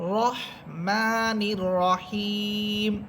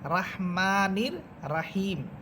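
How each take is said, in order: First: The vowel after R is a heavy rounded o. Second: The vowel after R is an open aa. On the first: The speaker calls it right. "এখানে আপনাদেরকে পড়তে হবে রহমানির রহিম" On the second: The speaker calls it wrong. "এটা ভুল উচ্চারণ"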